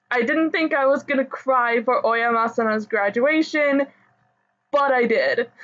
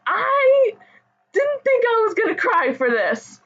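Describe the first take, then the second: First: Pulling herself together after crying; steadier through tears. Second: High, tearful crying voice; words pushed out through real tears. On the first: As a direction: still tearful but calmer. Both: Real, not acted. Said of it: "now that I've calmed down".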